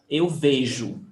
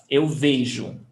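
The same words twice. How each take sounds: The two takes are said the same way.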